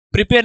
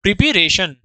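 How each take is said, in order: First: "प्रिपेयर" said as the rejected verb form; "प्रिपेयर" marked as wrong, with a slight lift. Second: "प्रिपरेशन" given firmly as the right answer; "प्रिपरेशन" with a falling, decisive finish; correct noun form. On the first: (गलत रूप "प्रिपेयर", हल्का ऊपर उठाकर) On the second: (सही रूप "प्रिपरेशन", नीचे गिरते सुर में पक्का) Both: Shown as a demonstration. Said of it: "प्रिपेयर नहीं".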